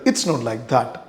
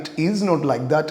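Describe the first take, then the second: First: 'It is' is shortened to a single syllable. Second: 'It is' is said as two full words. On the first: "short ആക്കിയിട്ട്" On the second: "ഇറ്റ് ഈസ് not like that എന്നുള്ളതാണ്"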